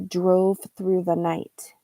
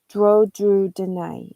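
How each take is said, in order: First: Every sound and word ending is fully pronounced. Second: Word endings are dropped and sounds are substituted. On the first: The speaker calls it right. "The person was trying to say" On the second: The speaker calls it wrong. "the person said"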